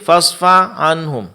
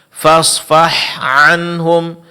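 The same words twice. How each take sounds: First: The h sound is faint and unclear. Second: The h sound is clear and audible. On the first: The speaker calls it wrong. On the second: The speaker calls it right.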